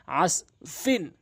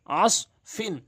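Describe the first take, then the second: First: আস ফিন read slowly, syllable by syllable. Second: আস ফিন said as one word in a changed reciting voice; recited word. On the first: Teacher sounding out a word for students, slowly. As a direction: spell out আস ফিন slowly for learners. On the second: Teacher modelling Quran recitation of a word, smooth reading voice. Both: Shown as a demonstration. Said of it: "এখানে আইন দিয়ে সদকে ধরা হয়েছে".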